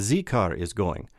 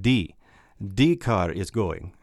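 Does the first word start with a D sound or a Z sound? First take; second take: Z sound; D sound. First: The first word starts with a Z sound. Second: The first word starts with a D sound. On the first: "others would say Z car is going" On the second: "you would say like D car is going"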